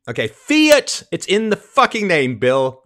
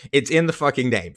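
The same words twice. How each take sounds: First: High, loud furious outburst at Bill; angry shout. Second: Said in the usual way. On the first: Real, not acted. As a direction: yell the point like he can't believe it. Ranting at Bill Maher.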